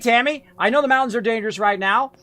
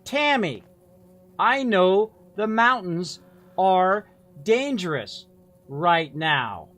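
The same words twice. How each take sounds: First: The line is read at a quick pace. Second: The line is read at a slow pace. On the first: The speaker calls it right. "What you want" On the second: The speaker calls it wrong. "That's too slow"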